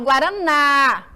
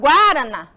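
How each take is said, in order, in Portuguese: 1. A sílaba tônica fica na última sílaba. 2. A sílaba tônica fica antes da última sílaba. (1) "eu falo Guaraná" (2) "Eu falo Guaraná? Não"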